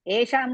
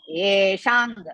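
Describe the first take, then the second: First: The word ends with an m sound. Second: The word ends with an ng sound. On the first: The speaker calls it wrong. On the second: The speaker calls it right.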